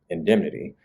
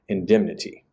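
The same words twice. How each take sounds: First: The T is a quick tap. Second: The T is released with a puff of air. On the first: This is the usual general American pronunciation. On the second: "might produce an aspirated T instead"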